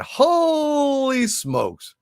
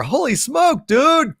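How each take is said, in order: First: A long, drawn-out, high holy smokes; slow, high, awestruck holy smokes; amazed. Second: Amazed. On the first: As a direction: stretch Holy smokes out slowly, stunned. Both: Real, not acted. Amazed at a big super chat.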